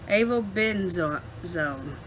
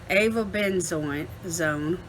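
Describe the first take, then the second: Both takes have the same delivery.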